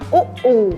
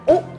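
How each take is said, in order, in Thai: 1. เสียงสระ oo นี้ยาว 2. เสียงสระ oo นี้สั้น (1) "it can be long sound like" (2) "it can be short sound like"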